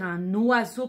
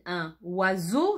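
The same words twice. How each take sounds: First: The n of un links into oiseau. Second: The n of un is not carried onto oiseau. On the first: The speaker calls it right. "je devrais faire la liaison" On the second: The speaker calls it wrong. "Je ne le dis pas exprès pour que vous écriviez correctement oiseau"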